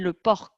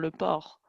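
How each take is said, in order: First: The final consonant of porc is pronounced. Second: The final consonant of porc is silent. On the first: This is how people in the south say it. "ma grand-mère qui était de Toulouse disait" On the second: This is the standard way to say it. "on dit aussi les les consonnes"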